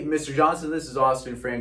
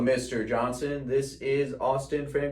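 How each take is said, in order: First: The voice is warm and friendly. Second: The voice is flat and robotic. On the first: The caller is being personable. The speaker calls it right. "You are being personable" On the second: The caller is reading from a script. The speaker calls it wrong. "they sound like a robot"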